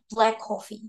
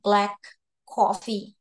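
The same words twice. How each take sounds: First: The two k sounds merge into one. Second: Both k sounds are pronounced separately. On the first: The speaker calls it right. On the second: The speaker calls it wrong.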